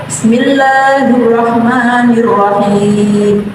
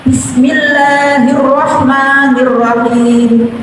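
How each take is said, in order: The two takes are said the same way.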